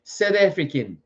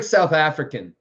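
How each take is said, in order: First: South African said as "Seth Efrikan"; rough South African accent on "South African". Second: Said in the usual way. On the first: Shown as a demonstration. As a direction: tighten the vowels of South African, amateur South African accent. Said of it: "I can't do accents very well". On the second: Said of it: "I can't do it".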